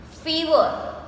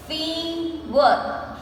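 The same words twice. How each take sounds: First: Said in the usual way. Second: "Fever" split as fee... ver; two separated beats on "Fever"; slowly broken up. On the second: Shown as a demonstration. Teacher counting two syllables, "Fever" slowly broken up. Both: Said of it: "we say it slowly and we break the word".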